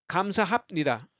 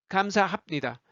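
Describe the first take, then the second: No difference in how they are said.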